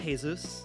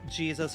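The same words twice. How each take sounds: First: It starts with a Spanish H-like sound. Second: It starts with an English J sound.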